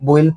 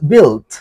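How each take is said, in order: First: The vowel starts with a u-like glide. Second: The vowel is a plain short i. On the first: The speaker calls it wrong. "অনেকে বইল্ট বলে, এগুলো বলা যাবে না" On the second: The speaker calls it right. "এখানে ইউ এর উচ্চারণ হয় না"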